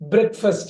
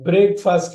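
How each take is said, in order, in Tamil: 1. முதல் உயிரெழுத்து குறுகியது, 'brek' போல. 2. முதல் உயிரெழுத்து நீளம், 'break' போல. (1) "உடைச்சு சின்னதா கொண்டு வந்துடும்" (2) "பிரேக்ஃபாஸ்ட் இல்ல"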